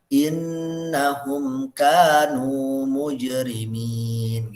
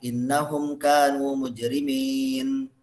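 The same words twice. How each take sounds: First: The n in innahum is pressed and doubled. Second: The n in innahum is short, not doubled. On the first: The speaker calls it right. "Jadi ditekan" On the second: The speaker calls it wrong. "syiddah ini nggak kebaca"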